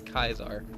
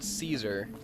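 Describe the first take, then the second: First: The name begins with a k sound. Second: The name begins with an s sound. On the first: "they pronounce it as Kaisar" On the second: "it's the word Caesar"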